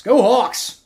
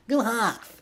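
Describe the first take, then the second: First: Loud, higher cheer slipping into Brooklyn; Brooklyn accent. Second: High, softer stab at Seattle; badly faked Seattle accent, pitched up; attempted Seattle accent. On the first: Streamer cheering on the Seahawks, accidental Brooklyn accent. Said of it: "that's a Brooklyn accent". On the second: Streamer retrying the Seahawks cheer, failed Seattle accent. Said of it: "I don't know how to do a Seattle accent". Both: Shown as a demonstration.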